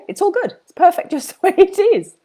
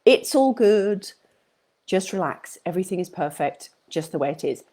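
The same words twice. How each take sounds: First: Much higher, bright, breaking into a laugh; chirpy high reassurance with a giggle; laughing cheer. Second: Calm reassurance, settling a stressed audience; soothing reassurance. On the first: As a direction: toss it off lightly with a laugh. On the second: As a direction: ease them gently off the hook. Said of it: "Let yourself off the hook". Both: Real, not acted.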